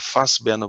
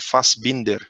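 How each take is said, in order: First: The ending is reduced, without the final consonants. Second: The ending is full, with all final consonants. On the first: This is how the family said it in dialect. "pela pronúncia no, no, no, no dialeto" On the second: This is the name as it is actually written. "Na verdade, era Fassbinder"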